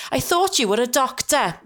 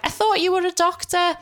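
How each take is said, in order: First: Higher-pitched, strongly Welsh mum imitation. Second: Much higher-pitched indignant mum imitation; mum kicking off. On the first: Daughter redoes mum's complaint more like her, very Welsh accent. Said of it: "she's obviously very, very Welsh". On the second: Daughter imitates mum challenging her medical advice, kicking off. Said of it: "she'll kick off and she'll be like".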